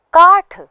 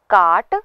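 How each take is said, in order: First: काठ high and loud, breath on ठ; aspirated retroflex th. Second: काट louder, ending in plain hard ट; unaspirated retroflex t. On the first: Teacher repeats for learners, काठ with final aspiration. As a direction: end काठ with a puff. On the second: Teacher repeats for learners, काट without final aspiration. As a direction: end काट with no puff. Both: Shown as a demonstration. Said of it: "इनका उच्चारण पुनः करें".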